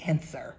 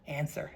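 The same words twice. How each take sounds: First: Barked one-word order; loud command. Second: Said in the usual way. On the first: Acted. Ben pressing the player for an answer, loud command. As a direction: demand it, much louder. Ben demands again, harder.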